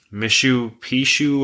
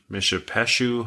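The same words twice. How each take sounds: First: MISHU PISHU said as two two-syllable words, 'mishoo peeshoo'; alternative pronunciation. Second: MISHAPESHU as one word, 'mish-uh-PESH-oo'; preferred pronunciation. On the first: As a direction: say Mishu Pishu slowly, with 'ee' in Pishu. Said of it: "however you wanna say it". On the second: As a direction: say Mishapeshu with a short 'uh' and 'pesh'. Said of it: "sounds more like ... the correct pronunciation". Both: Shown as a demonstration.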